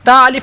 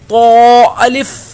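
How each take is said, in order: First: The letter is said with a thin, light sound. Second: The letter is said with a thick, heavy sound. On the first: The speaker calls it wrong. "ता अलिफ नहीं पढ़ेंगे" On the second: The speaker calls it right. "बल्कि तो अलिफ"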